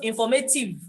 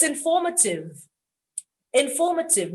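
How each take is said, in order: First: Informative said in-for-MAY-tiv; wrong informative. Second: Informative said in-FOR-ma-tiv; informative, stress on FOR; correct informative. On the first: Retold or imitated. Teacher showing the mistake. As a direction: informative with the stress moved to may. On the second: Shown as a demonstration. Teacher giving the right form. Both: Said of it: "not informative".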